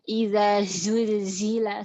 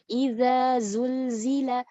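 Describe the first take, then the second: First: The z is breathy with escaping air. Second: The z is clearly voiced without extra air. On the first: The speaker calls it wrong. "salah. Zulzil, zulzila ada anginnya. Salah" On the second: The speaker calls it right.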